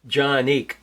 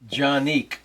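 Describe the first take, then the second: First: The name begins with a J sound. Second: The same.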